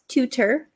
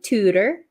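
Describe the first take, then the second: First: The middle t is a crisp, clear t. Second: The middle t is a quick soft flap. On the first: The speaker calls it wrong. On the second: The speaker calls it right. "This is also a flap T"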